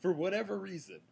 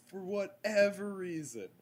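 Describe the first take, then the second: First: Said in the usual way. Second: "whatever" split, with EVER punched high; stress on EVER. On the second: Real, not acted. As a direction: hit the middle of "whatever" hard, exasperated. Repeats phrase with added emphasis.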